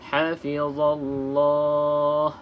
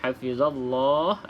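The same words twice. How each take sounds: First: The long vowel is held for four counts. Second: The long vowel is held for two counts. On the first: "ataupun boleh baca empat" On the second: "dua harakat"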